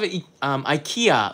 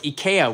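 First: IKEA is pronounced the usual English way. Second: IKEA is pronounced the Japanese way.

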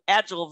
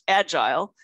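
First: It is said the American way. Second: It is said the non-American way.

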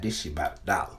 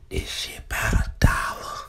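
First: The phrase is said in a full voice. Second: The phrase is said in a whisper. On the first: It is no secret. The speaker calls it right. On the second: It sounds like a secret. The speaker calls it wrong.

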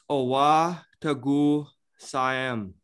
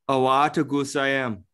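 First: It is said at a normal pace. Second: It is said quickly, words running together.

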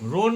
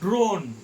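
First: The word begins with a plain 'r' sound. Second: The word begins with a 'dr' sound. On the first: The speaker calls it wrong. "রোন না" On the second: The speaker calls it right.

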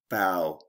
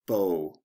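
First: The vowel sounds like the one in 'cow'. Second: The vowel sounds like the one in 'no'. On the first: "Sometimes O-W represents another sound" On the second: "There are 2 ways to pronounce this word"

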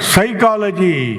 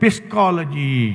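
First: The word begins with an s sound. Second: The word begins with a p sound. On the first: The speaker calls it right. "ಪಿ ಏನಾಯಿತು?" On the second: The speaker calls it wrong. "ಹೇಗೆ ಬರೆದಿದ್ದೀವಿ ಅದೇ ಥರ ಉಚ್ಚಾರಣೆ ಮಾಡಬೇಕಂದ್ರೆ"

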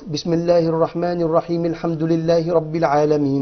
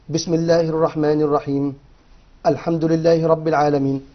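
First: It flows on without a pause. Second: There is a pause after الرحيم.

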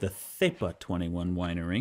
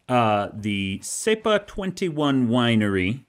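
First: It is said with a Spanish accent. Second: It is said with an English accent.

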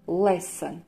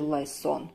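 First: The second syllable has a reduced vowel. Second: The second syllable has a full O vowel. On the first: The speaker calls it right. "отнюдь это будет слово lesson" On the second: The speaker calls it wrong. "Мы не прочитаем данное слово как lesson"

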